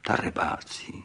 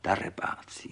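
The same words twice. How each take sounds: First: Soft unvoiced murmur of fondness; mother fondly sighing at the soldiers; tender. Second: Whispered fondly, very soft; mother whispering tenderly at the explosions. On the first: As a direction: breathe it gently, like a mother's pet name. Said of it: "a pokaždé řekla něžně". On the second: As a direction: hush it like a loving mother. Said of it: "řekla něžně". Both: A narrator's reading.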